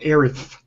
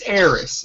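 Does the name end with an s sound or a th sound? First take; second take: th sound; s sound. First: The name ends with a lisped th sound. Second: The name ends with a plain s sound. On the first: The speaker calls it wrong. "Aerith just sounds like, I don't know, like you got a speech problem" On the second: The speaker calls it right. "It's Eris"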